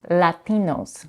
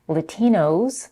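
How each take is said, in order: First: The first vowel is an open Spanish-style a. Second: The first vowel is reduced to a schwa. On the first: "the more neutral Spanish a" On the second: "with the first vowel reduced to a schwa"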